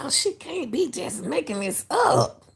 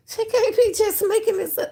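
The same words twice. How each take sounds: First: Higher, incredulous; can't believe what she just heard; disbelieving, pitched up; stunned disbelief. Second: Much higher, incredulous through a laugh; disbelieving, pitched way up; laughing disbelief. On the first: Reacting in disbelief to psychic clip. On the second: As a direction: squeak it out in amazed disbelief. Laughing disbelief after clip. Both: Real, not acted.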